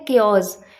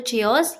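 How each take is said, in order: First: It begins with a 'k' sound, like 'kay-os'. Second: It begins with 'chee' and ends in 'os'. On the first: The speaker calls it right. "Correct pronunciation इसकी होती है केओस" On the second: The speaker calls it wrong. "बहुत से लोग बोलते हैं या तो चियोस"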